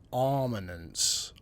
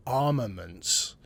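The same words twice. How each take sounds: The two takes are said the same way.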